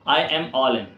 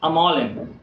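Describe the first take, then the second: First: I and am are said as separate words. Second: I am is squeezed into one short syllable.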